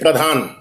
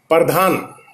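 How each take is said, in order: First: The p and r form a cluster, no vowel. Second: A short vowel separates the p and r. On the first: "वन टू वन" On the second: "Urdu क्षेत्र में वो प्रधान यानी टू टू वन इस वजन पे बोलते हैं"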